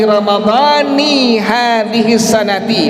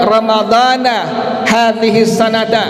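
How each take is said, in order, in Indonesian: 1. Ramadhan berakhir dengan 'i', sanat berakhir dengan 'i'. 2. Ramadhan berakhir dengan 'a', sanat berakhir dengan 'a'. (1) "maka maknanya aku berpuasa esok hari Ramadan tahun ini" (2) "tidak dibaca dengan kalimat ramadhana hadhihi sanata"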